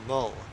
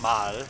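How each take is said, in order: First: The vowel sounds like a short uh. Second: The vowel sounds like an open ah. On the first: The speaker calls it right. "it's mull" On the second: The speaker calls it wrong. "It's not mal"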